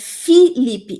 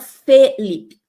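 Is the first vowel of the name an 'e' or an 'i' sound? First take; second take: i; e. First: The first vowel is an 'i' sound. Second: The first vowel is an 'e' sound. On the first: The speaker calls it right. "O Felipe dele é com I" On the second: The speaker calls it wrong. "não é com E"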